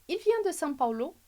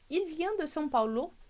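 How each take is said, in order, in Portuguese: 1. A entonação sobe no final. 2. A entonação sobe no final.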